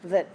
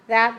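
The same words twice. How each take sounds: First: The word is said in a weak, reduced form. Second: The word is said in a full, strong form. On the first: It introduces a relative clause. "Relative pronouns are also weak" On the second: It points at something. "Not pointing that"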